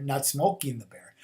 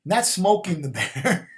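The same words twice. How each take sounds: First: Said in the usual way. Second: "Not" hit hard and slow, louder; slow, louder "Not smoking the bear"; stress on NOT. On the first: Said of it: "Not, not Smokey the bear". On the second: Shown as a demonstration. Correcting a mishearing, stressing the word "Not". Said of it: "about poking the bear".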